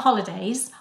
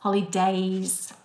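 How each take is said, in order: First: The final z sound is plain and short. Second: The final z sound is buzzed and drawn out. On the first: The speaker calls it wrong. "Not Holidays" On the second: The speaker calls it right. "It's Days with a Z"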